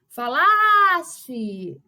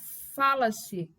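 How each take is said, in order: First: The stress is on the second syllable. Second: The stress is on the first syllable. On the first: It refers to a hypothetical past. "a segunda sílaba é tônica" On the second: It refers to the present. "a sílaba tônica aí temos o fa"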